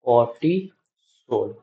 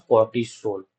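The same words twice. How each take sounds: First: cortisol stretched out slowly, each syllable drawn. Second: Said in the usual way. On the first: Shown as a demonstration. Teacher repeating the answer for students to copy, slowly. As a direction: draw out cortisol slowly for the class. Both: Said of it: "उसका नाम क्या होता है?".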